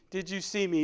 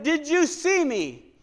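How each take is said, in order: First: Said in the usual way. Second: Slow, higher, hushed divine question; gentle slowed question from above; God's voice. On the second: Retold or imitated. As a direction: let it float slowly like a voice from heaven. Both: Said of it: "God said".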